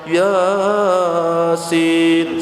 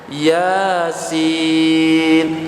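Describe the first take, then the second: First: The first syllable is drawn out long. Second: The second syllable is drawn out long. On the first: The speaker calls it wrong. "yang iyanya yang panjang Yasin, salah itu" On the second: The speaker calls it right. "sinnya itu agak panjang"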